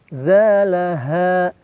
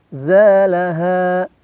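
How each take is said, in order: Both takes have the same delivery.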